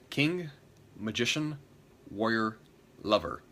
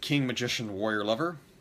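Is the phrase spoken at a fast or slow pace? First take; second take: slow; fast. First: The words are spoken slowly and clearly articulated. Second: The words are spoken quickly and run together.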